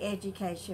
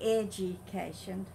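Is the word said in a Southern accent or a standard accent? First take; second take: standard; Southern. First: The word is said in a standard accent. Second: The word is said in a Southern Mississippi accent. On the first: "she wouldn't say education" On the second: "but she would say education"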